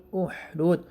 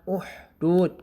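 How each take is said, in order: The two takes are said the same way.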